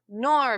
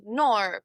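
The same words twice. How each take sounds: First: Said in the usual way. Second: "no" said as "nor"; Aussie "naur" for "no"; soft R added. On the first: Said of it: "so no becomes no". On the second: Shown as a demonstration. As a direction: end "no" on a soft R. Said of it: "Add a soft R".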